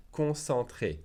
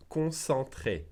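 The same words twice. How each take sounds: The two takes are said the same way.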